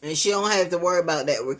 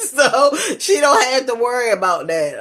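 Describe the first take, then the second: First: Said in the usual way. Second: High, loud laughing repeat; giggling retake; laughing through it. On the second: Real, not acted.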